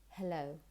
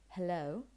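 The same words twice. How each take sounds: Both takes have the same delivery.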